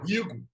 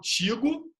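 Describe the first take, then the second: First: The word starts with a plain r sound. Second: The word starts with a plain t sound. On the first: "eu não falo rigo" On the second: "Eu não falo tigo"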